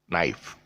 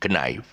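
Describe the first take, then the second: First: The K at the start is silent. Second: The K at the start is sounded. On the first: The speaker calls it right. "it's pronounced as uh, um, knife" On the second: The speaker calls it wrong. "which is not pronounced as knife"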